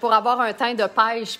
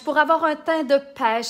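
First: It is said in a broad Shawinigan Quebec accent. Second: It is said in a neutral French accent.

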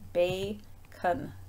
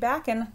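First: The first vowel is a long a. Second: The first vowel is a short a. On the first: The speaker calls it right. "that is bacon. ... long A" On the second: The speaker calls it wrong. "That would not be backen"

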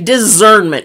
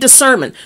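First: The middle consonant is a buzzing z sound. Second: The middle consonant is a hissing s sound. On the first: The speaker calls it wrong. "Where's the Z?" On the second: The speaker calls it right. "some people can't even say discernment"

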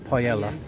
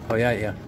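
No difference in how they are said.

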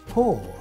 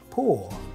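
First: The final R sound is clearly pronounced. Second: The final R sound is dropped. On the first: "In American English, we will go R" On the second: "in British English"

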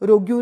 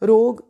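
First: The word ends with a 'gyoo' sound. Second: The word ends with a plain 'g' sound. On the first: The speaker calls it wrong. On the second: The speaker calls it right.

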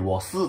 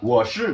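First: The second syllable is said as su. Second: The second syllable is said as shi. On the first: This is how southern speakers say it. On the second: This is the standard way of saying it.

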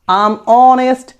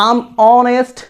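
Both takes have the same delivery.

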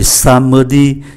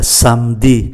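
First: It is said with three syllables. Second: The middle vowel is dropped, leaving two syllables. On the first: "thay vì somebody" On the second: "còn lại là somebody"

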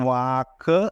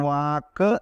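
Both takes have the same delivery.

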